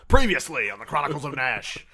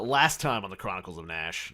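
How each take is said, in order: First: It is said like the Dragon Ball announcer. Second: It is said in his normal voice.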